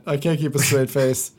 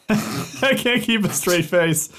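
First: Words breaking into a laugh; struggling not to laugh; stifled giggles. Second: Laughing through the words; barely holding back laughter; stifled giggles. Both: Real, not acted.

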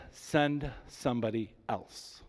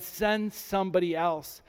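First: Slow, soft plea to be let off; a slow, quiet pleading take. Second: Said in the usual way. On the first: Acted. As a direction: beg quietly, dragging the words. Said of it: "He pleaded with the Lord". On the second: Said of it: "he said".

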